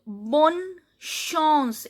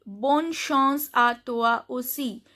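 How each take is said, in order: First: Bonne chance drawn out, "bon... shons"; slow word-by-word demo. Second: Said in the usual way. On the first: Shown as a demonstration. Teacher breaks down the sentence's nasal sound, slow drawn-out demo. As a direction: stretch bonne chance, pausing between the two words. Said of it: "A N sound is on". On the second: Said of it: "I can read a sentence here".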